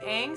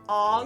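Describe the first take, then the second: First: The name is said with a long A vowel. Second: The name is said with an O vowel. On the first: The speaker calls it right. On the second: The speaker calls it wrong.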